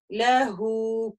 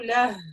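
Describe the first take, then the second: First: The final vowel is lengthened to two beats. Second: The word ends abruptly with no final vowel. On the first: The reader continues into the next word. "Но при продолжении лягу" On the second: The reader stops on this word. "Если я остановлюсь, я скажу ля"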